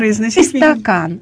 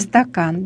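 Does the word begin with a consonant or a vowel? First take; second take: vowel; consonant. First: An extra vowel is added before the word. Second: The word begins directly with the consonant cluster. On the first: "например, «истакан»" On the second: "Вместо «стакан»"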